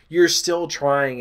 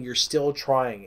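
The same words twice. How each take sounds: First: You're still trying, slow and firm; stress on still trying. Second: "still" leaned on, quieter and slow; stress on still. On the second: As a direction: press on "still" in "you're still trying". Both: Real, not acted. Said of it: "slow emphatic close".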